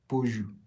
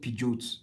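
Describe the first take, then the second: First: It uses the standard brand pronunciation. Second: It uses the local Nigerian pronunciation. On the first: This is the brand's own pronunciation. "that's the right way to pronounce it" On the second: This is how people in Nigeria say it. "We call it Peugeot"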